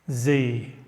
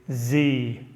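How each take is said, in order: First: The letter is said the American way, zee. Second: The same.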